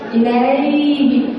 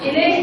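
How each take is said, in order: First: The word is said gently, with a soft glide. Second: The word is said forcefully, without a soft glide. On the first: The speaker calls it right. "बहुत आराम से" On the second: The speaker calls it wrong. "गलत हो जाएगा"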